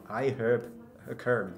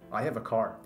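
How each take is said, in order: First: It is said with a Japanese accent. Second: It is said with a native English accent. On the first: The speaker calls it wrong. "I have a car みたいになっちゃう" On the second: The speaker calls it right. "日本人が例えば I have a car って言おうとすると"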